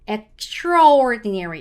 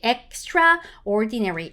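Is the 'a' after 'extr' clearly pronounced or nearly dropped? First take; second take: dropped; clear. First: The 'a' after 'extr' is nearly silent. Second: The 'a' after 'extr' is fully pronounced. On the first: The speaker calls it right. "A 발음이 거의 없다라고 생각하시고 읽으셔야지 자연스러워져요" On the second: The speaker calls it wrong. "너무 정직한 발음이었다"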